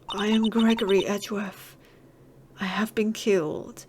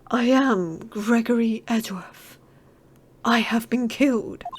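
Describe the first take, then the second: First: It is read in a plain, ordinary voice. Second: It is said in a put-on medium's voice.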